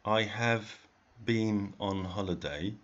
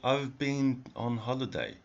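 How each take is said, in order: First: The word have is said in full. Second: The word have is contracted onto I. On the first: "You don't have to say" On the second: "you can always say, ... It's it's even easier to say"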